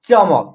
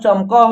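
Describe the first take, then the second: First: The word ends on a bare k sound. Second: The word ends with a vowel after k. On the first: The speaker calls it right. "यहाँ क अक्षर का उच्चारण आधा हो जाएगा" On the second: The speaker calls it wrong. "इसमें भी अ की साउंड आएगा और आपका उच्चारण गलत हो जाएगा"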